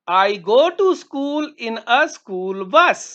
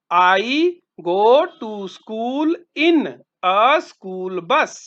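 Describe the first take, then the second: First: Slow, clear model sentence; slow model answer. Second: Drawn-out word by word, dropping at the end; very slow repeat. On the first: Teacher modelling an answer for students, slow and clear. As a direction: say each word slowly for the class. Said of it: "हाँ". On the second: Teacher repeating the answer for students, very slow. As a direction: spell it out slowly for the class. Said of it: "ठीक है, मैं school school बस में जाता". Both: Shown as a demonstration.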